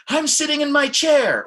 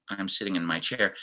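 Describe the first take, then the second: First: High, loud and bright with excitement; excited. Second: Softer and deflated; mildly downcast; a little bit down. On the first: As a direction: burst it out eagerly. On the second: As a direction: let it sag a little. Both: Shown as a demonstration. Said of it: "It looks like Mike is a little bit down".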